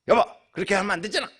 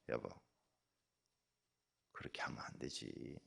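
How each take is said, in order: First: It is spoken quickly and sharply. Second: It is spoken slowly and gently. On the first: The speaker is irritated. The speaker calls it wrong. "옛날에는" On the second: The speaker stays calm. The speaker calls it right. "천천히"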